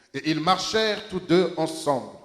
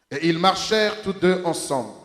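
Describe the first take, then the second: Both takes have the same delivery.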